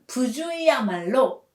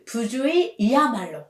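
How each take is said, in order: First: 부주의야말로 read with 야말로 straight after 의, no extra 이; correct form. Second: 부주의이야말로 read with an extra 이 before 야말로; wrong quiz option 부주의이야말로, the 이 clearly added; wrong form. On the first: Teacher reads the correct quiz option, 부주의야말로 without extra 이. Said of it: "The correct answer is number one". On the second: Teacher reads the wrong quiz option, 부주의이야말로 with extra 이. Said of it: "부주의이야말로 is wrong". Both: Shown as a demonstration.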